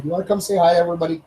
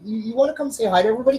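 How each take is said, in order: First: Said in the usual way. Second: Quick, high coaxing to the dog; high pet voice. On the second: Real, not acted. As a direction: sing it to the dog, fast. Coaxing dog to greet viewers.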